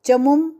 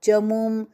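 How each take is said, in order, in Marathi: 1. 'mu' मधील स्वर ह्रस्व आहे. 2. 'mu' मधील स्वर दीर्घ आहे. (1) "नहीं" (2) "ये मु दीर्घ"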